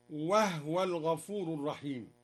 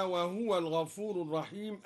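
First: "وهو" said wahwa, no vowel on h; vowelless ha. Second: Said in the usual way. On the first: Shown as a demonstration. Teacher showing the reading, "وهو" with silent-vowel ha, wahwa. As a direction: recite "وهو" in two syllables, wah-wa. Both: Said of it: "أسكن الهاء".

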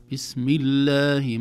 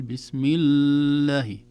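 First: الله with the lam dragged, slow; the mistake of stretching the doubled lam in الله; overheld lam. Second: الله with the lam held very long, slow; over-stretched lam. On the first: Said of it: "كما يقول". (إطالة اللام خطأ) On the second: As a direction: drag the lam of الله on purpose. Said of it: "ما نقول". (تطويل مبالغ فيه) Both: Shown as a demonstration.

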